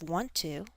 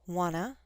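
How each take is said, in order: First: Both words are said fully and separately. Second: The words are blended into one short reduced form.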